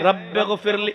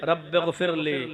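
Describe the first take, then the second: First: It is said plainly, without pleading. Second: It is said slowly, in a pleading way.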